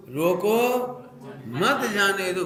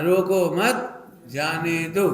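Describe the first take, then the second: First: "रोको" drawn out and raised, pause, then "मत जाने दो" together; pause after रोको. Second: "रोको मत" as one group, pause, then "जाने दो"; pause after मत. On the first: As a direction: break after रोको so it means stop them. ("रोको" के बाद विराम, फिर "मत जाने दो") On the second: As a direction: slowly, break after मत so it means let go. ("मत" के बाद विराम देकर धीरे) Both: Shown as a demonstration. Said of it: "comma बदल दिया केवल".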